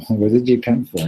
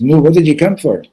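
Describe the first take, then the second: First: Puzzled inner question at usual pitch; silent wondering. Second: Higher, louder pressing question; impatient demand. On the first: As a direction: wonder it to yourself, understated. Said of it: "wondering, like". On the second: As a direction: finally come out and demand an answer. Maggid finally demands an answer. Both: Acted.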